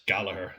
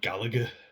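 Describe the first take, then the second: First: The second g sound is silent. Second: The second g sound is clearly pronounced. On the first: The speaker calls it right. "We don't pronounce the second G" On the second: The speaker calls it wrong. "where they call him Gallagher"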